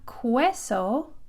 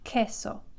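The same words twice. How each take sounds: First: A w sound follows the k. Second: No w sound follows the k. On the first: The speaker calls it wrong. "it's not queso, because you're not going to say the U" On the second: The speaker calls it right. "Q, U together is just k"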